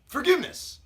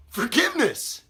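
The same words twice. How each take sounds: First: High-pitched questioning repeat; incredulous echo. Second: High, emphatic repeat of the plea; scornful exclamation. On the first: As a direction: echo the victim's plea in disbelief. Captor echoes victim's plea. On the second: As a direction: throw the plea back at your victim. Captor repeats the plea, escalating. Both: Acted.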